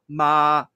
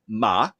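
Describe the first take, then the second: First: The pitch stays high and level throughout. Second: The pitch starts low and then drops further. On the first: It means mother. "the first Chinese tone, ... which is all kind of an upper uh, tone" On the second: It means horse. "the second tone, it starts uh, low and then drops off"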